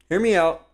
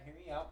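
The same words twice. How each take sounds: First: "Hear me out." called out loud and high, the word "me" pushed; louder pitch. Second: "Hear me out." barely above a murmur, much softer; softened voice. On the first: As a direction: belt out "Hear me out." with "me" on top. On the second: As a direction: breathe "Hear me out." gently, pulling way back. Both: Acted. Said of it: "but soften your voice".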